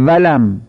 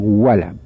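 First: ولم as valam, leaning on the v; toothed Persian v. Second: ولم as walam with rounded lips; correct Arabic w. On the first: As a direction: hold a buzzing v at the start of ولم. («ولم» با واو دندانی فارسی) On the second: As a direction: start ولم on a lip-rounded w, no teeth. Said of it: "باید بگیم ولم". («ولم» با واو لبی عربی) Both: Shown as a demonstration.

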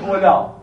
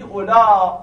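First: اولا ending on an open ā, no hamza; با قصر. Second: اولا with a long louder ā and final glottal stop. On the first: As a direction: say اولا short, without a closing glottal stop. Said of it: "یعنی نمیگید اولا". («اولا» با الف مقصور، بدون همزه) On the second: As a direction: draw out the last vowel of اولا and close it with hamza. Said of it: "با حالت مد میگید". («اولا» با مد و همزهٔ آخر) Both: Shown as a demonstration.

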